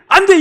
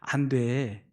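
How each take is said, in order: First: It is said sharply and angrily. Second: It is said calmly and gently.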